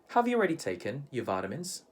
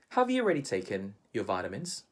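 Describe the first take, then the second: First: It is said with a Filipino English pronunciation. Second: It is said with a Filipino English pronunciation.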